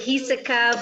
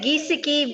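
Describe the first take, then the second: First: The name is said the Dutch way. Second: The name is said the common English way. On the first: This is the name's real original pronunciation. "it's a Dutch name. It's really Hiseka" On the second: This is how most people say it. "most people say Giesecke"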